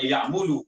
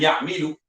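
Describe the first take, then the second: First: The vowel after 'm' is 'u'. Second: The vowel after 'm' is 'i'. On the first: "Bukan ya'mulu" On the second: "Bukan ya'milu"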